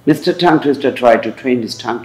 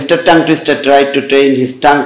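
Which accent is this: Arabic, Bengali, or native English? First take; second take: native English; Bengali. First: Every T is released with a strong puff of air. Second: Every T is a hard unaspirated retroflex t. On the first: "যদি আপনি নেটিভদের মতো চান তাহলে ঠিক আমার মতো চলবেন।" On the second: "এটা বাঙালিদের মতো বা ইন্ডিয়ানদের মতো।"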